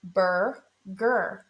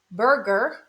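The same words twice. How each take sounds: First: "Burger" as two separate beats, "bur ... ger"; split into syllables. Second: Said in the usual way. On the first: Shown as a demonstration. Teacher showing both syllables of "Burger", each said apart. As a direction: draw out "Burger" with a gap between syllables. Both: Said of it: "You hear it in both syllables".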